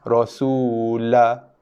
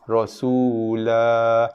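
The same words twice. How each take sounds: First: The final vowel is cut too short. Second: The final vowel is held for two counts. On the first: The speaker calls it wrong. "kadar dua harakatnya tidak mencukupi" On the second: The speaker calls it right. "Dua harakat"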